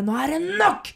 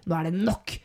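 First: Raised, higher voice, laying down the law; acted angry outburst. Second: Controlled, final statement in an everyday pitch; authoritative. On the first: Imitating a man who slams the table, angry outburst. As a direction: slam it down like a fist on the table. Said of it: "slår hånda ned i bordet og bare". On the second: Retold or imitated. Imitating a man who has had enough, authoritative. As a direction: lay it down firmly without raising the voice. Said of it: "så er han plutselig autoritær. Han er sterk".

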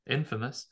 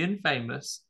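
First: Said in the usual way. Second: "infamous" said as in-FAY-mus; mispronounced infamous. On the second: Real, not acted. Host reading out trivia to co-host, mispronounced "infamous" as in-FAY-mus. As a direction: say "infamous" like "in" plus "famous", long AY in the middle. Says it wrong, then corrects.

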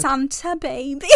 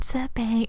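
First: Whisper yelling. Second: Breathy whispered imitation; whisper yelling. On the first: Retold or imitated. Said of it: "she's like". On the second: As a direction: whisper it seductively. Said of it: "Why are you whispering like that?".

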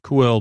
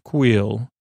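First: "Quell" with a short e; near-miss pronunciation. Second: "Queel" with a long ee; corrected name pronunciation. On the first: Host showing what the name almost sounds like, near-miss pronunciation. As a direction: say "Quell", rhyming with well. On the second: Host settling how the character's name sounds, corrected pronunciation. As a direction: say "Queel", rhyming with wheel. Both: Shown as a demonstration. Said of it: "almost like Quell, but Queel".

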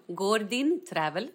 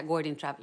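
First: Name said with an English accent. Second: Name read in plain Swedish; low Swedish pronunciation; Swedish accent. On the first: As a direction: say it the English way, drawn out. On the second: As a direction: say it as Swedish, lower and matter-of-fact. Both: Shown as a demonstration. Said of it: "Fast på svenska".

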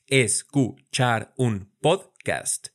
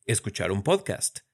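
First: "Escuchar un podcast" drawn out slowly, syllable by syllable; slowly split into syllables. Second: Said in the usual way. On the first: Shown as a demonstration. Teacher splitting a phrase into syllables for students. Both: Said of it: "Vamos a practicar nuestra división silábica".

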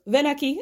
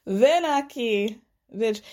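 First: Slightly raised fake Spanish accent; mock Spanish accent. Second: Slow, mocking fake Spanish accent; mock Spanish accent, drawn out. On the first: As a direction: imitate a put-on Spanish accent, quick command. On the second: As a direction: stretch out a put-on Spanish accent. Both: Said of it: "the accent got more and more thick".

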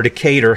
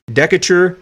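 First: Decatur stressed in the middle, di-KAY-ter; alternative name pronunciation. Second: Decatur stressed on the first syllable, DEK-uh-ter; first name pronunciation. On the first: Host unsure of the name offers another way, Decatur as di-KAY-ter. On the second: Host reading history offers one way to say the name, Decatur as DEK-uh-ter. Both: Shown as a demonstration. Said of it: "however you wanna s-, say his name".

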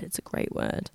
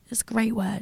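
First: Low, much softer aside; hushed repeat. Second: Said in the usual way. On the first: Real, not acted. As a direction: drop it right down, almost voiceless. Remark repeated to herself, hushed.

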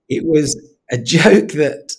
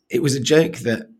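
First: High, slow words with a laugh breaking in. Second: Said in the usual way. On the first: Real, not acted. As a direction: laugh through it, loud and slow. Laughs while telling dark joke.

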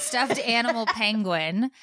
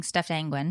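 First: "animal penguin" as two full words, higher and slow; corrected pronunciation. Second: "angwin" with the start of penguin lost; slurred-together slip. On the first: Mom correcting her own slip, "animal penguin" said in full. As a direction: spell out "animal penguin" slowly through a laugh. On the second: Mom owning up to her slip, "angwin" run together. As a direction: say "angwin", animal and penguin mashed into one. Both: Shown as a demonstration. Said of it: "I was saying stuffed angwin".

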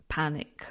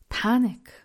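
First: Said in the usual way. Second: Panic. said louder and higher, with a falling end; a sudden burst of retold alarm on Panic; mock panic. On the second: Recalling the spelling call, a louder mock panic.

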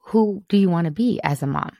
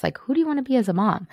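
First: Said in the usual way. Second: Who do you want to be, pitched up and fast; fast, raised retake of the question; quicker, higher rephrase stressing do. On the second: Shown as a demonstration. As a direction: toss the question off lightly with a lift on do. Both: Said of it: "Maybe that's just".

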